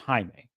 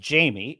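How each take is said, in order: First: The name is said the Spanish way. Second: The name starts with an English j sound. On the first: The name is said the way its owner says it. The speaker calls it right. "he could audibly say it's pronounced Jaime" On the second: The name is being read from its spelling. The speaker calls it wrong. "she could be reading it as Jamie and mispronouncing it"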